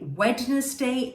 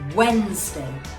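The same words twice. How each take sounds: First: The D is pronounced. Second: The D is silent. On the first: The speaker calls it wrong. "that's wrong" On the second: The speaker calls it right. "The D here is silent"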